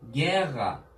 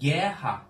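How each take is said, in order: First: The double r sounds like a throaty soft g. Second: The double r sounds like a breathy h. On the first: "ya da yumuşak G" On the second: "H harfi yapabilirler"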